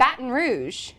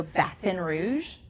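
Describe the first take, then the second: First: "Baton Rouge" with the T softened to D; corrective imitation. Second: "Baton Rouge" slowly with a sounded T; pronounced T. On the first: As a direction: mimic how they say "Baton Rouge", soft D for T. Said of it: "No, you say Baton Rouge". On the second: Shown as a demonstration. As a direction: go slow on "Baton Rouge", saying the T. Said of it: "You pronounce that T".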